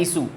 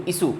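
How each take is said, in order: First: इशू said with sh, i-shu, the wrong way; wrong isshu. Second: इशू said with a plain s, i-su; isu with s. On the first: Teacher showing the wrong way with sh. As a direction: show इशू said with sh. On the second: Teacher correcting students to say isu. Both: Shown as a demonstration. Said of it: "शू नहीं, सु".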